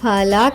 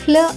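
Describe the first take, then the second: First: A vowel separates the f and l sounds. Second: The f and l sounds are joined together. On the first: The speaker calls it wrong. "ఫలా కాకుండా" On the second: The speaker calls it right. "ఫ్ల అవుతుంది"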